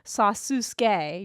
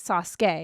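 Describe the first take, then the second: First: The middle 'u' is clearly pronounced. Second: The middle 'u' is silent. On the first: The speaker calls it wrong. "you're not saying Sasuke" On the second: The speaker calls it right. "you're saying Sasuke"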